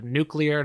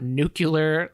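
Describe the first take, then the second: First: It is said as 'nu-klee-er'. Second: It is said as 'nu-kyuh-ler'. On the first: The speaker calls it right. "it's uh, nuclear" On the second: The speaker calls it wrong. "not nuclear. A little George Bushism there"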